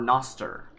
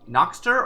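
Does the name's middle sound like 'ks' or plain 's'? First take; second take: s; ks. First: The middle consonant sounds like a plain 's'. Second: The middle consonants sound like 'ks'. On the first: The speaker calls it wrong. "the the sea could be soft" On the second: The speaker calls it right. "It's Noxter"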